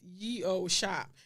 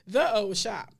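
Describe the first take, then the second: First: The first word starts with a 'y' sound. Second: The first word starts with a 'th' sound. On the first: The speaker calls it wrong. "a sign that reads" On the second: The speaker calls it right. "the correct pronunciation is actually"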